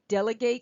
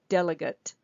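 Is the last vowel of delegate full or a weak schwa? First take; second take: full; schwa. First: The last vowel is a full vowel. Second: The last vowel is a weak schwa. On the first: It is the verb, meaning to hand something over. "to delegate something" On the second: It is the noun, meaning a person. "the this A would also be a schwa"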